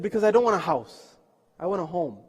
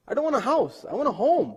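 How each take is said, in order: First: Said in the usual way. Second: Higher, emphatic restating; insistent repeat. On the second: Retold or imitated. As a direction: press the point home in a raised voice.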